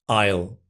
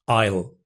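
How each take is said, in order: The two takes are said the same way.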